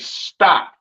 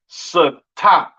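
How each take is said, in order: First: The s and t sounds blend together. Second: A vowel separates the s and t sounds. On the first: The speaker calls it right. "you would say stop" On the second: The speaker calls it wrong. "You wouldn't say stop"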